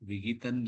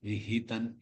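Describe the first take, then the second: First: The h sound is light and weak. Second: The h sound comes strongly from the throat. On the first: The speaker calls it wrong. "இல்ல" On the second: The speaker calls it right. "ஹி தொண்டிலிருந்து வரணும்"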